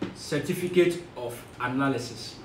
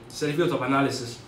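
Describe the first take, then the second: First: It is said slowly and carefully. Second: It is said at normal conversational speed.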